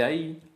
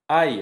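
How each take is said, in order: First: The stress is on the last syllable. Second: The stress is on the first syllable. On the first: The speaker calls it right. "en vez de" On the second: The speaker calls it wrong. "Tendencia llana"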